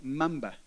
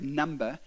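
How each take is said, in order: First: "mumba" with M in place of the first N; child's letter mix-up. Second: Said in the usual way. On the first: Retold or imitated. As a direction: say "mumba" for number, M at the start. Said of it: "the N and the M's mixed up". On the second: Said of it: "get her letters mixed up in".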